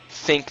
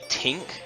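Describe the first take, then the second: First: The word starts with a soft th sound. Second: The word starts with a hard t sound. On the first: "they don't say think" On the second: "Irish when they pronounce ths as uh, hard t's"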